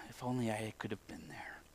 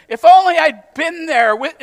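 First: Very low, hushed inner thought; wistful whisper. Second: Loud, high, drawn-out longing; emphatic wishing. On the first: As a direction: whisper it like a private longing. Voicing a wistful private thought. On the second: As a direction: belt out the wish, slow and high. Acting out the wishful claim, emphatic. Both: Acted.

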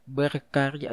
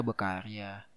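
First: Said in the usual way. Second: Berkarya softly, r dropped, bakarya; lisped r. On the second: Real, not acted. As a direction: berkarya with a missing r, quiet. (berkarya cadel, huruf r hilang) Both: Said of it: "Aduh sorry gue cadel ya".

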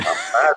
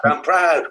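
First: Laughing pride. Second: "proud" thrown out higher and louder, a mock boast; emphatic proud. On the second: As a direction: boast "I'm proud" loudly. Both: Real, not acted.

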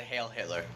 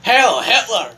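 First: Quoting quietly. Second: Loud mock salute shout. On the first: Retold or imitated. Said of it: "you said". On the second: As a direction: bark it out loudly. Shouts it again loudly.

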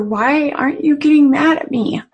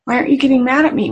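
First: A pleading question, louder, from a son overcome; a teen's emotional question to his mother; emotional plea. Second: Fast and louder, the question tumbling out; the son repeating it fast to his mother; rushed emotional repeat. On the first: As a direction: ask it upset, barely holding it together. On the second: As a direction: blurt it again, quicker and desperate. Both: Retold or imitated. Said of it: "actually emotionally asked her".

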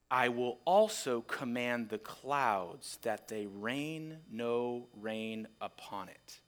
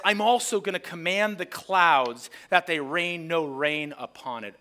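First: Softer, lower and slow; quiet and slow. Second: Louder, punchy reveal; spring the trap on the crowd. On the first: The owner reads his final threat over the vineyard, quiet and slow. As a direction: let the threat sink in quietly. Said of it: "until that last line". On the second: Isaiah springs the trap on his audience, louder reveal. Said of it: "Isaiah is now springing the trap". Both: Shown as a demonstration.

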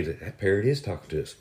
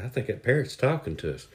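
First: "is" stressed as a confirmation; emphatic "is" in a quiet realization. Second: Said in the usual way. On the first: Acted. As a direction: lean on "is", now convinced. Couple now sure it talks.

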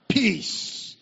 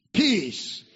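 No difference in how they are said.

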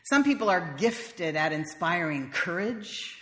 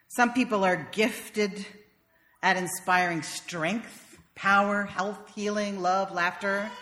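First: "Some" stressed, phrase drawn out slowly; slow, deliberate. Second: "Some" stressed again, words stretched very slowly; even slower, drawn out. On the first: Speaker stressing "Some" to the audience, slow and deliberate. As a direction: lean on "Some" and take it slow. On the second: Speaker building the list for the audience, very slowly. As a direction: stretch every word, slower still. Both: Shown as a demonstration.

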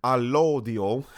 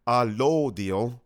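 First: Said in the usual way. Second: "lodio" stretched slowly with a rising tune; drawn-out savoring. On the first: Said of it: "wow, a lodio". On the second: Shown as a demonstration.

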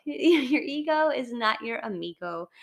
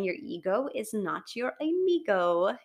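First: Your punched, with a laugh, ego not amigo; stress on your. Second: Said in the usual way. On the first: Shown as a demonstration. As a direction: lean into the first Your, amused. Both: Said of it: "I love the saying".

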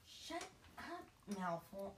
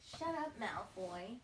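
First: Trelawney voice by mistake. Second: Parvati voice. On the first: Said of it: "that's a Trelawney". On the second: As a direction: snap back at the bully as the schoolgirl. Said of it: "Wait, no, that's a Trelawney". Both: Shown as a demonstration.

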